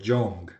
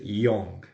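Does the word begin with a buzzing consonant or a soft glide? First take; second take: buzzing consonant; soft glide. First: It begins with a buzzing Spanish-style Y consonant. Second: It begins with a soft I-like glide. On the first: The speaker calls it wrong. "muchas veces lo pronuncian como young" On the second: The speaker calls it right. "pero no, es young"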